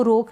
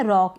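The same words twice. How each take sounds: First: रोक with a closed "oh" vowel; wrong long-o reading. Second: रॉक with an open "aw" vowel; open-o pronunciation. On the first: Teacher rules out a misreading, closed-o रोक. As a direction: say रोक as "rohk". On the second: Teacher models the word for learners, open-o रॉक. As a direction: say रॉक as "rawk". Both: Shown as a demonstration. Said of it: "इसको रोक नहीं पढ़ेंगे".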